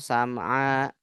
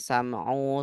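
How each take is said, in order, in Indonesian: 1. Kata ini berakhir dengan vokal a. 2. Kata ini berakhir dengan vokal u. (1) "nggak boleh" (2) "nggak boleh"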